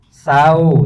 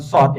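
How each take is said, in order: First: It begins with a plain, light s sound. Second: It begins with an emphatic, heavy s sound. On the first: The speaker calls it right. "sin kecil" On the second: The speaker calls it wrong. "bukan shot"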